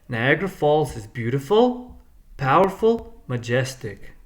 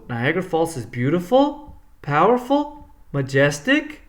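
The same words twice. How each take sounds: First: The pitch falls on the final word. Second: The pitch rises on the final word. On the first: The list is complete. "the pitch goes down" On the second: The list is incomplete. "it doesn't go down; it goes up"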